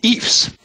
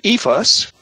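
First: The word is said with one syllable. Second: The word is said with two syllables.

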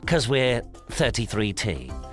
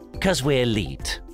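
First: The last word is read as digits and a letter. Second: The last word is said as one word, leet. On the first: The speaker calls it wrong. "I don't know what that means" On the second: The speaker calls it right. "Leet, of course. With two threes instead of two E's"

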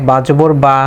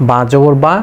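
No difference in how they are said.

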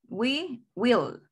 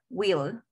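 First: It is said as two full words. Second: It is said as one contracted syllable. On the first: "Vamos con we will" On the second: "en forma corta ... ¿Y cómo se pronuncia?"

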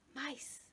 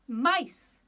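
First: It is said quietly. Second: It is said loudly.

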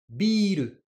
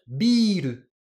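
The two takes are said the same way.

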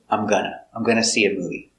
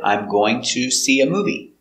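First: Going to is reduced to gonna. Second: Going to is said in full as two words. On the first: This is how people talk casually. "when you hear people talk in casual English" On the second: This is the careful, standard form. "This is always correct, especially in written English"

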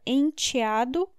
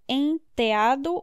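First: The T is said as a plain t. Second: The T is softened toward a th sound. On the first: "The T can be th or t" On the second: "The T can be th or t"

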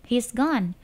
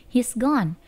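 Both takes have the same delivery.

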